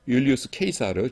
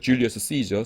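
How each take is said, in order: First: The name is pronounced the Latin way. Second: The name is pronounced the English way.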